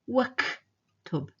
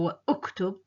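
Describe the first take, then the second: First: Wa runs straight into the k without any catch. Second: The vowel after wa starts with a separate catch. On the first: The speaker calls it right. "I'm saying waktub. So the hamza is dropped" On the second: The speaker calls it wrong. "I'm not saying wa iktub or wa uktub"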